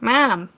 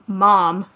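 First: The word is said in a Chicago accent. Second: The word is said in a normal accent. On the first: It copies how a coworker said it. "I had a coworker when I worked at Walgreens who was from Chicago, and when she said" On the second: It is the speaker's own usual way of saying it. "like my normal accent"

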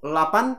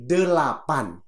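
First: The syllables are chopped off and clipped short. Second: Every syllable is pronounced fully and clearly. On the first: The speaker calls it wrong. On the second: The speaker calls it right.

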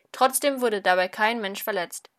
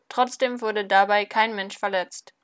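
No difference in how they are said.

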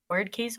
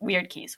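First: The first word rhymes with 'bird'. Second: The first word rhymes with 'beard'. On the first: The speaker calls it wrong. "Other people pronounce it as word" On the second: The speaker calls it right. "We decided it was weird"

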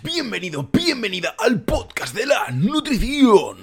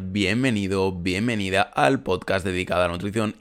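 First: It is said in an unusual put-on voice. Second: It is said in his normal speaking voice.

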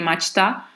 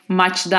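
First: The ending starts with a voiceless t sound. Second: The ending starts with a voiced d sound. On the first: The speaker calls it right. "I say maçta" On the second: The speaker calls it wrong. "I don't say maçta"

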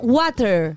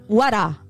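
First: It ends with an R sound, not Australian. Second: It ends in a closed A, Australian style.

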